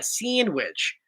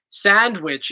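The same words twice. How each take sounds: First: It is said in a South Jersey accent. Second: It is said in a standard American accent. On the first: "We say sand, sand" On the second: "is how you're supposed to pronounce it"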